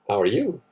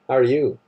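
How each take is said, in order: First: It sounds flirtatious and suggestive. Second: It sounds hostile and contemptuous.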